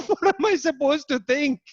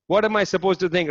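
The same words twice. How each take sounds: First: Mock incredulous, pitched way up; retelling the minister's baffled reply, pitched high. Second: Said in the usual way. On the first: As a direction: imitate a baffled minister throwing up his hands. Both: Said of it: "And Arezia was just like".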